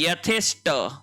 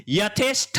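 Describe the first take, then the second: First: यथेष्ट with a crisp unaspirated ट at the end; correct form. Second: यथेष्ठ read with aspirated ठ at the end; यथेष्ठ ending in a breathy ṭh; wrong form. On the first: Teacher giving students the correct यथेष्ट, crisp t. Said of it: "ये होता है यथेष्ट". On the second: Teacher showing students the wrong यथेष्ठ, aspirated th. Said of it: "नहीं होता है". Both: Shown as a demonstration.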